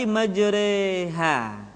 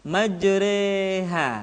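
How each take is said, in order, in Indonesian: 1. Vokal setelah r condong ke e. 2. Vokal setelah r condong ke e.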